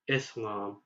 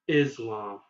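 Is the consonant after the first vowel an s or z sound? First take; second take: s; z. First: The middle consonant is a hissing s sound. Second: The middle consonant is a buzzing z sound. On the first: The speaker calls it right. "say is and add lam at the end" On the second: The speaker calls it wrong. "rather than"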